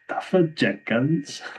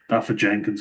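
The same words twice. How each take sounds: First: The name is said in a Welsh accent. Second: The name is said without a Welsh accent. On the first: "I can't say his name without a Welsh accent" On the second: "I managed to say it without the accent"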